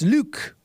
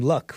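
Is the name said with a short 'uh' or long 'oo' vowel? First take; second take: long oo; short uh. First: The vowel is long, like in 'Luke'. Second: The vowel is short, like in 'luck'. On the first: The speaker calls it right. "It's Luke" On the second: The speaker calls it wrong. "I pronounce the name Luck rather than Luke"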